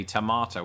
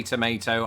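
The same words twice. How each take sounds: First: TOMATO as "to-MAH-to"; British tomato. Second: TOMATO as "to-MAY-to"; MAY in the middle of TOMATO; American tomato. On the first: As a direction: say TOMATO with a long AH. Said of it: "I say tomato". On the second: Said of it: "You say tomato". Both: Shown as a demonstration.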